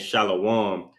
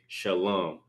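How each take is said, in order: First: The word is said in a longer, fuller form. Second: The word is said in a shorter root form. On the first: The speaker calls it wrong. "instead of saying shalom" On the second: The speaker calls it right. "we say shalom because that's the root of the word"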